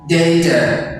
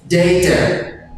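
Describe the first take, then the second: No difference in how they are said.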